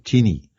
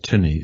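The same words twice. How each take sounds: First: The word is said in an Australian accent. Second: The word is said in a non-Australian accent. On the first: "The Australians would say tinny" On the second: "Now I would say tinny"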